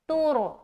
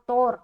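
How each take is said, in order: First: The first vowel sounds like 'oo' in 'too'. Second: The first vowel sounds like 'o' in 'tore'. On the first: The speaker calls it right. "तोर नहीं बोलना, बल्कि" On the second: The speaker calls it wrong. "लोग यहाँ पर जो मजहूल पढ़ते हैं ना, ये वो पढ़ेंगे"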